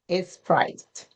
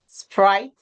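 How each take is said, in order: First: An extra vowel comes before the s sound. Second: The word begins directly with the s sound.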